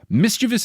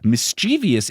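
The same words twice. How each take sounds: First: It ends plainly in -vous, with no extra sound. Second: It ends in -vee-ous, with an extra sound. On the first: The speaker calls it right. "mischievous is the correct word" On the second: The speaker calls it wrong. "Mischievous is a misspelling ... they add the I"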